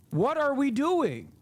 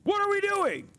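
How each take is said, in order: First: Raised, slowed exasperated question; raised exasperated What are we doing. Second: Much higher, strained cry of disbelief; high strained What are we doing; incredulous. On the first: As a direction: ask it in disbelief, slowly. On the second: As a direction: pitch it way up, stunned. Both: Real, not acted. Exasperated rant.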